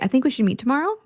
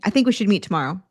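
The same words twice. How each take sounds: First: The voice rises at the end. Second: The voice falls at the end. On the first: It sounds like an uncertain question. "it sounded like a question" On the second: It is a decided statement. "instead of saying"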